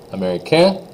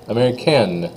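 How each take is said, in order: First: High, rising américain, no N; silent N. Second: Falling américaine with its N; N sounded. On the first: Teacher leads students in repeating, américain without N. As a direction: lift américain off on the vowel. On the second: Teacher leads students in repeating, américaine with N. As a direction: settle américaine on a clear N. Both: Shown as a demonstration. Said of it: "just say them with me here".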